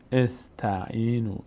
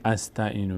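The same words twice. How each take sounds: First: Slow, spaced استعینو with initial "e"; correct kasra opening. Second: Quick run-through of استعینو misread with initial "a"; wrong fatha opening. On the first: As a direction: say استعینو starting with a short "e": "esta'inu". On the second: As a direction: say استعینو starting with an open "a": "asta'inu". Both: Shown as a demonstration.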